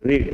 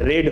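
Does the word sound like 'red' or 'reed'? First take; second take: reed; red. First: The vowel is long, like 'reed'. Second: The vowel is short, like 'red'. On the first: The action happens in the present. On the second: The action happened in the past.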